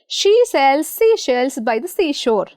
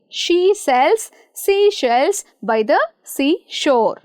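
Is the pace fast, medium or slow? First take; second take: medium; slow. First: It is said at a moderate pace. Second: It is said slowly.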